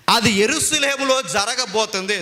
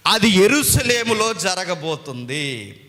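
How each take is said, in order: First: Said in the usual way. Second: Slow solemn repeat. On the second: Shown as a demonstration.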